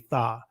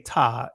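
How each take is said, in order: First: It begins with a soft th sound. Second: It begins with a hard t sound. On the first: The speaker calls it right. "it's going to say tha" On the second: The speaker calls it wrong. "It's not going to say ta"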